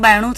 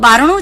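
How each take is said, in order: First: The middle consonant is a y sound. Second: The middle consonant is an r sound. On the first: "એનું બાયણું થઈ જાય છે" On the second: "બારણું છે"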